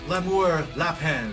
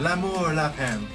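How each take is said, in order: First: It is read plainly with an English accent. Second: It is said with a French accent.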